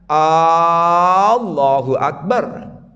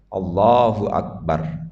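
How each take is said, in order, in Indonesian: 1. Vokal 'A' dipanjangkan. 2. Vokal 'A' dibaca pendek. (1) "tidak boleh A-nya panjang ... Salah itu" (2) "sebaiknya tidak panjang ... begitu cukup"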